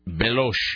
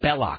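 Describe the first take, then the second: First: The name ends in a soft sh sound. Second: The name ends in a hard k sound. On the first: The speaker calls it wrong. "Sala mispronounces his name and says" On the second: The speaker calls it right. "no, Belloc, not Belosh"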